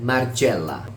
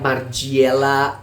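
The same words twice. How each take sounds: First: The i and e after the g nearly merge. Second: The vowels after the g are not blended. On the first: The speaker calls it right. "semu-semu I dan E... menyebutkannya hampir dilebur" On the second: The speaker calls it wrong. "Tidak Margiela"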